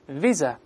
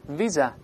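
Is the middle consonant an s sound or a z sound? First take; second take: z sound; z sound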